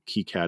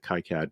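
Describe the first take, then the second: First: It uses the standard, non-American pronunciation. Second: It uses an American-style pronunciation. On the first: "the appropriate way to pronounce it" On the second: "I always pronounce it KiCad because I'm American"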